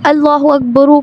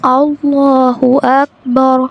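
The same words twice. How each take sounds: First: अकबर voiced as akbaru, with a final u; quicker अल्लाहु अकबर without the pause form; unstopped ending. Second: अल्लाहु drawn out, अकबर ending on a still, full रा; slow model recitation, stopping on the r of अकबर; careful tajweed demo. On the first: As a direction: add a short u after the रा of अकबर. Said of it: "क्यों नहीं पढ़ा". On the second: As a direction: stretch the heavy लाम of अल्लाहु. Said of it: "इसलिए हमने इसको पढ़ना". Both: Shown as a demonstration.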